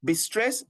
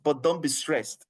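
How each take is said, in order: First: "Be stressed" lifted up at the end like a half question; "Be stressed" said easily, with a rise; rising tune. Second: "don't" leaned on, then "be stressed" falling to a firm close. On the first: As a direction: let "stressed" rise, light and open. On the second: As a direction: punch "don't" and let the phrase drop. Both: Shown as a demonstration. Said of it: "I want to say the way we usually say it".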